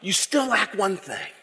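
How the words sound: It is said in a light Bert and Ernie voice.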